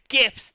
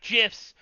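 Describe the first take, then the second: First: The word begins with a hard G sound. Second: The word begins with a J sound. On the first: The speaker calls it right. "It's a G sound" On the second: The speaker calls it wrong. "not a J sound"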